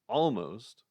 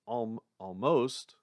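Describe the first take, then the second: First: The stress is on the first syllable. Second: The stress is on the second syllable. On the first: "or it could be almost" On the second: "It could be like believe"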